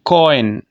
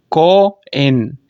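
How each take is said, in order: First: Said in the usual way. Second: कॉइन very slowly split as "ko... en"; diphthong split. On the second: Shown as a demonstration. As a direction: break कॉइन between its two vowels, with a gap. (कॉइन को धीरे से "को... इन" तोड़कर) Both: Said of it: "एक vowel से मैं दूसरे vowel की तरफ गया".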